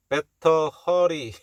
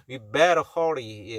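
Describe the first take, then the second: First: Better hurry with a hard, separate T in better; wrong pronunciation. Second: Better with the TT softened to an R-like tap; better hurry, American-style; American flapped T. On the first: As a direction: spell out better slowly with a crisp T. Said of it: "better hurry가 아닙니다". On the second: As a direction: flap the T in better, curl the R in hurry. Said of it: "티티 발음은 R 발음 비슷하게 난다는". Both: Shown as a demonstration.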